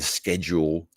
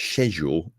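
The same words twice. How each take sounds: First: "schedule" opened with a hard sk; "schedule" with a k sound; own pronunciation. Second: "schedule" with no k sound; other pronunciation. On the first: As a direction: say "schedule" as sked-jool. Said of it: "is how I would say schedule". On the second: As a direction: say "schedule" as shed-jool. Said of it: "over there it's schedule". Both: Shown as a demonstration.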